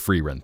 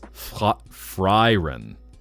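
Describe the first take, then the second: First: The first vowel sounds like 'ee'. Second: The first vowel sounds like 'eye'. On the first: "so it is Freerun" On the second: "you've heard it as Fryren"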